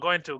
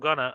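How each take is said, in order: First: The word 'to' is fully pronounced. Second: The word 'to' is reduced into the verb.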